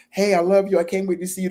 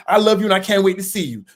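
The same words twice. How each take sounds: First: Sweet and high, meant with love; the loving way you typed it; loving text. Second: Louder, snippy mock attitude. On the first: Retold or imitated. Typing a loving text to a partner, sweet and fond. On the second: Partner reads the loving text with a mock attitude. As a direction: read it back as if annoyed. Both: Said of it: "Why you gotta say with an attitude".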